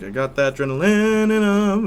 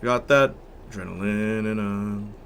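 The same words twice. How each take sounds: First: Sung in the high octave. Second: Same line an octave lower. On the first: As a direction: sing the line up top. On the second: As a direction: sing it down in the low octave. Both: Shown as a demonstration. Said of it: "He's doing octaves".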